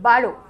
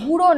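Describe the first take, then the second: First: The first vowel sounds like 'uh'. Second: The first vowel sounds like 'oo'. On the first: The speaker calls it right. "উচ্চারণ কি? বারো" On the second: The speaker calls it wrong. "এটা কিন্তু বুড়ো নয়"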